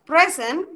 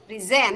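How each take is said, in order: First: The stress is on the first syllable. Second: The stress is on the second syllable. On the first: It is a noun meaning gift or an adjective meaning here. "pre yang ditekan, yang di silabus pertama" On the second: It is a verb meaning to present. "yang ditekannya yang silabus kedua, silabel kedua"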